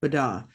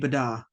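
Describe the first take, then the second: Both takes have the same delivery.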